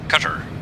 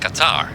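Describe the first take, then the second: First: The word sounds like the English word cutter. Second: The word does not sound like cutter. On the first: The speaker calls it wrong. "I heard Americans say uh, cutter" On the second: The speaker calls it right. "no, it's Qatar"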